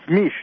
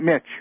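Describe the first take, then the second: First: The name ends in a soft 'sh' sound. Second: The name ends in a sharp 'ch' sound. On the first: The speaker calls it right. "And it's Mish" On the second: The speaker calls it wrong. "not Mitch"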